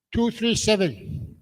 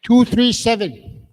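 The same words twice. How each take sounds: First: A quieter echo of the call; softer slow repeat. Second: Loud slow call. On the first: Host repeating the ticket number for the room, softer and slow. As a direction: repeat it slowly, softer, still raised. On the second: Host calling the winning ticket at the draw, loud and slow. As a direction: raise the pitch and call it out slowly, loud. Calling prize number to the room. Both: Real, not acted.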